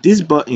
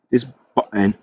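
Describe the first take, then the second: First: Said in the usual way. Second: Attempted British accent on "button". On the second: Shown as a demonstration. Coding tutor playfully trying his British accent on "button", British accent. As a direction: try out a British pronunciation of "button". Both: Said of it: "let's try and do my British accent there".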